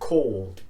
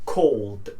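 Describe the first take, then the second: No difference in how they are said.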